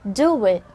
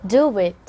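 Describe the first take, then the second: First: A slight w sound links the two words. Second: A slight w sound links the two words.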